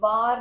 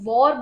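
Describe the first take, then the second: First: It is said with a Punjabi accent. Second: It is said with a standard English accent. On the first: The speaker calls it wrong. "war नहीं, So that is Punjabi touch" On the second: The speaker calls it right. "तो war बोलते हैं"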